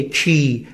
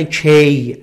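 First: کی with a long "ee", like key; correct pronunciation demo. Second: کی said "key" with an "ey" vowel, like kay; mispronunciation demo. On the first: Shown as a demonstration. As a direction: say کی rhyming with "see". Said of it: "تلفظ جفتش چیه؟". (تلفظ درست «کی» با «ای» کشیده) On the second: Retold or imitated. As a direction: say کی wrongly, rhyming with "day". (تلفظ اشتباه «کی» با صدای «اِی»)

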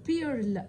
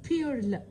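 No difference in how they are said.

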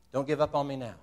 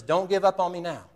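First: Said in the usual way. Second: Urgent plea. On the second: Retold or imitated. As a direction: drive him on like a coach on the sideline. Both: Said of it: "And Coach says".

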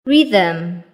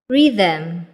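The two takes are said the same way.

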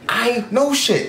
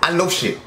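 First: Much slower, each word stretched; slow emphatic repeat. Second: Said in the usual way. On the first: Shown as a demonstration. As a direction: drag out "I know shit" slowly.

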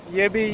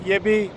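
No difference in how they are said.

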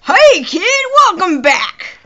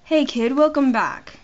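First: High, loud country greeting; country accent. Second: Attempted British accent at talking volume; easygoing, lightly done British greeting. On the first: Acted. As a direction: belt it out in a hammed-up country twang. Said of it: "That's country". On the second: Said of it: "How do I do a British accent?".

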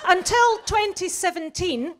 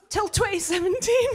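First: Said in the usual way. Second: "seventeen" pushed higher in disbelief; mock-appalled repeat; incredulous repeat. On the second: Real, not acted. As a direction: repeat it as if you can't believe it.

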